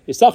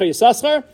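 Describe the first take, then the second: First: The name is said with one s sound. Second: The name is said with two s sounds. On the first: "The first time with one sin" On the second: "the second time with two sins"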